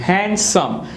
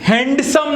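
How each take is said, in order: First: The D sound is left out entirely. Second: The D sound is pronounced in the middle. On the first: The speaker calls it right. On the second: The speaker calls it wrong.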